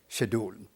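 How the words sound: It begins with a Pakistani 'sh' sound.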